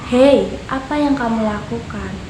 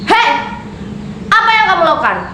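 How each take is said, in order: First: The voice is pitched lower than normal. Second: The voice is pitched higher than normal. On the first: It does not sound like anger. The speaker calls it wrong. "dia berbicara dengan nada yang rendah? ... Bukankah itu aneh?" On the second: The speaker sounds angry. The speaker calls it right. "berbicara dengan nada yang lebih tinggi dari nada bicara pada umumnya"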